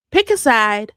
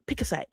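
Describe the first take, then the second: First: Firm, louder repeat; louder demand. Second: Said in the usual way. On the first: Real, not acted. Scolding a troll in the comments, louder repeat. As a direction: say it again, harder.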